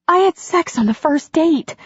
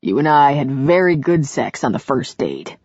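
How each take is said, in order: First: High-pitched, astonished heroine; astonished outburst. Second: Lightly voiced hero with stress on "very"; a hint of an amused man. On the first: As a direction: blurt it out high in disbelief. Heroine's astonished confession in dialogue. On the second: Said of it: "he said with a laugh". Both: A narrator's reading.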